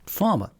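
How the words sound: The R before the M is silent. "in British English, we would tend to say farmer... the R is is really not there"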